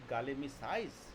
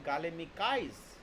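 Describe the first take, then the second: First: The consonant before the suffix sounds like s. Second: The consonant before the suffix sounds like k. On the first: The speaker calls it right. "I simply said galemicize. So Ka changes" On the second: The speaker calls it wrong. "I didn't say galemicize"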